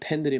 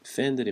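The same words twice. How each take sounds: First: The word begins with a p sound. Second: The word begins with an f sound. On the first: The speaker calls it wrong. "그러지 마시고" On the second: The speaker calls it right. "그렇게 연습을 하세요"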